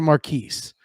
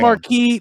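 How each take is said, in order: First: The word ends with an s sound. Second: The word ends without an s sound. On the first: The speaker calls it right. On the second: The speaker calls it wrong.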